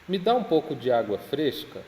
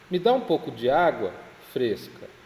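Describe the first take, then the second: First: The words run on with no pause before the end. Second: There is a pause before the final word. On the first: The water being asked for is cool. "Essa é a primeira" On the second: The person being asked is called fussy. "mas eu vou fazer uma pontuação diferente"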